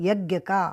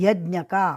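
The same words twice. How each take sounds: No difference in how they are said.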